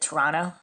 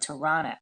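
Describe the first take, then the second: First: Toronto is said the way Canadians say it. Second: Toronto is said in a non-Canadian way.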